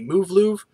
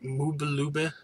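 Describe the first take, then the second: First: The name is said with a V sound. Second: The name is said with a B sound.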